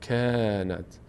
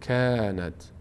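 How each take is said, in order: The two takes are said the same way.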